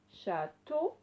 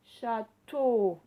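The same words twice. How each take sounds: First: Said in the usual way. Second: "Château" split, TEAU loud and long; stress on second syllable. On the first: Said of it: "où vous entendez le son O". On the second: Shown as a demonstration. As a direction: punch and hold the final O of "Château". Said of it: "on l'entendait dans la deuxième syllabe". (« Château » en appuyant fort sur TEAU)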